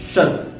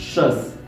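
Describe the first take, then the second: No difference in how they are said.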